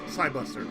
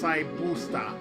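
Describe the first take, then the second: First: The name is said with English pronunciation. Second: The name is said with Japanese pronunciation. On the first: "English is Saibuster" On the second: "Japanese is pronounced Saibusta"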